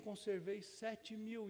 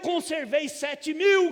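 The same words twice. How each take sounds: First: It is read in a soft, gentle tone. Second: It is read in a hard, stern tone. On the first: It is an encouragement that the listener is not alone. "a gente fica velho e a gente lê o texto hoje assim" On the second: It is a rebuke that puts the listener in his place. "entonação muito dura"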